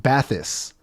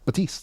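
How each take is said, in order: First: The name is said like 'bath-ease'. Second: The name is said like 'ba-teest'. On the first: The speaker calls it wrong. "that's how I was pronouncing it" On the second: The speaker calls it right. "That's what it is"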